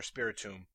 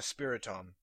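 First: Spiritomb ending in "toom"; alternative pronunciation. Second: Spiritomb ending in "tom"; alternative pronunciation. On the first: Podcaster repeating the name another way, Spiritomb as "SPIRI-toom". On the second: Podcaster explaining the glitch steps, Spiritomb as "SPIRI-tom". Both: Shown as a demonstration. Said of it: "however you would pronounce it".

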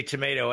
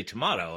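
First: "tomato" with a long A, tuh-MAY-toe; tomato one way. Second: "tomato" with a broad A, tuh-MAH-toe; tomato other way. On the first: The American variant of the old saying, "tomato" as tuh-MAY-toe. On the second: The British answer in the old saying, "tomato" as tuh-MAH-toe. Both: Shown as a demonstration. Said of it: "you say tomato, I say tomato".

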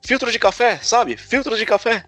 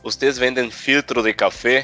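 First: "Filtro de café" repeated much higher, with Brazilian open vowels and a falling end; Brazilian intonation. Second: "filtro de café" said slower, with a rising Chilean tune; Chilean intonation. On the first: Repeating himself to a puzzled vendor, high and insistent. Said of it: "filtro de café pra filtro de café". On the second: Finally asking the vendor the local way, slow and rising. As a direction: ask "Vocês vendem filtro de café?" slowly, with a rising tune. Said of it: "como eu já tava meio habituado". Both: Retold or imitated.

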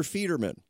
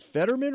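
First: Federman with a long EE up front; long E pronunciation. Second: Fetterman with a short first E; short E pronunciation. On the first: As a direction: say Federman as FEE-derman. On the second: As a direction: say Fetterman with FET as in "get". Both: Shown as a demonstration. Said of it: "pronounce your last name correctly".

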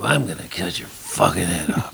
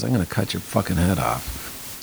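First: Overdone menace. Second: Menacing line read low. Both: Shown as a demonstration. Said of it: "You don't have to go".

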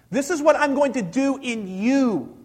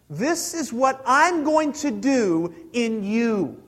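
First: Said in the usual way. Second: Slow and deliberate. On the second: Shown as a demonstration. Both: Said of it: "hear this".

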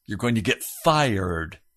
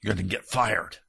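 First: "You're going to get fired" restated, stronger at the end; repeated for emphasis. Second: "gonna get fired" said low and soft, hinting at fire; word play on fired. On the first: Preacher repeating the pun to the congregation, steadier. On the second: Preacher teasing the congregation with a pun, softly. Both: Shown as a demonstration. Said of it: "You notice the word I used".

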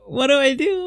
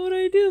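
First: Imitating a flustered question, a bit higher and louder; first worried ask; mild panic. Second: Much higher repeat of the question, panic building; rising panic. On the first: Picturing seeing road rage, mildly panicked. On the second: Retold or imitated. Picturing seeing road rage, panicking higher. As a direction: squeak it out the second time. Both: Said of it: "I would be like".

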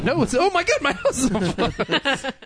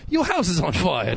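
First: High, slow, laughing fake alarm; mock panic. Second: Said in the usual way. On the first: Mock panic, second take.

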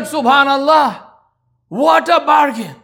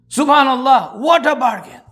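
First: High, slow, nearly shouted wonder; amazed exclamation. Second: Higher but less forceful repeat of the wonder; echoed exclamation. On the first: Wife marvelling at the trade, a slow amazed near-shout. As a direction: marvel out loud at the deal. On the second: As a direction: let the amazement settle as you say it again. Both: Retold or imitated.

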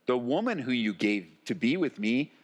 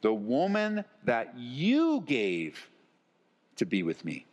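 First: Said in the usual way. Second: Slow, pointed lean on "you", then drop away; stress on YOU. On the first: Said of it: "Then the man said". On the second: Shown as a demonstration. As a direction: punch "you" to lay the blame there. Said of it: "Well, notice".

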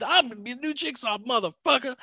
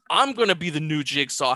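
First: High, fast swaggering Jackson impression; brash tough-guy boast, sped up; Samuel L. Jackson voice. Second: Said in the usual way. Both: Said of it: "and becoming".

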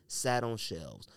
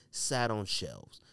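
The two takes are said the same way.

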